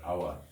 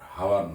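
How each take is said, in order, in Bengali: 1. শব্দটি একটি স্বরধ্বনি দিয়ে শুরু হয়, কোনো h নেই। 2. শব্দটি একটি স্পষ্ট h ধ্বনি দিয়ে শুরু হয়। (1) "এইচ এর উচ্চারণ হবে না" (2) "এইচ এর উচ্চারণ হবে না হাওয়ার নয়"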